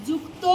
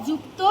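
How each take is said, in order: No difference in how they are said.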